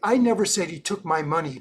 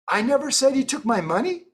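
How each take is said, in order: First: It ends falling, like a firm statement. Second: It ends rising, like a question. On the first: It is a firm denial. "period, that's an emphatic statement" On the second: It asks whether that was said. "that now becomes a question"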